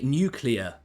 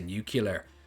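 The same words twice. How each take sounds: First: It uses the standard pronunciation. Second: It uses a regional accent pronunciation. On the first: "It's actually nuclear" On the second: "stick with my regional accent and say nuclear"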